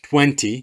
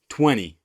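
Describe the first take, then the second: First: It is said in a British accent. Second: It is said in an American accent. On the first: "British English say uh" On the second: "but in America uh, they say"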